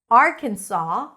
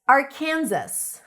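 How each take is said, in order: First: The word ends without an s sound. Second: The word ends with an s sound. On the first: "the pronunciation without the S" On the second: "the pronunciation with the S"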